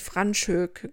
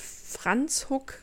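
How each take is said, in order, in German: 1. Der Name wird mit deutschen Schreiblauten gelesen. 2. Der Name wird mit afrikaansen Lauten ausgesprochen. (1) "wie es quasi jeder Deutsche vermutlich für sich liest" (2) "Aber es wird Franschhoek ausgesprochen"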